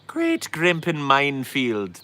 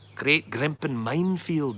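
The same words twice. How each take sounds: First: It is said in an Irish accent. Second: It is said in a Scottish accent. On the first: The speaker calls it right. "That's Irish. There you go" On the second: The speaker calls it wrong. "That's that's Scottish"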